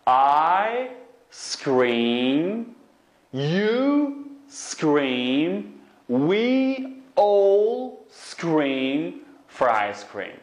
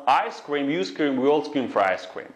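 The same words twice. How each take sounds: First: Very slow, each word stretched and rising; stretched-out model reading; slow demonstration. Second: Brisk, connected run-through; tongue twister at speed; quick demonstration. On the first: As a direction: draw out every word for learners. Teacher models tongue twister slowly. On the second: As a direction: say the twister straight through without stretching. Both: Shown as a demonstration.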